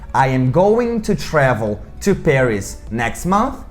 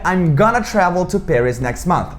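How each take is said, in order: First: Every word is said fully and separately. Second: The words are squeezed into a quick reduced form. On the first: It is the formal way to say it. "eu poderia dizer mais formalmente" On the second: It is the informal spoken way to say it. "no inglês falado vira"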